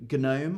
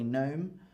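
First: A 'g' sound is said before the 'n'. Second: No 'g' sound is said before the 'n'. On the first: The speaker calls it wrong. "I don't say gnome" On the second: The speaker calls it right. "I say gnome"

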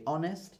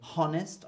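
First: The word starts with a vowel sound. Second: The word starts with an 'h' sound. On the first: The speaker calls it right. "I say honest" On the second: The speaker calls it wrong. "I don't say honest"

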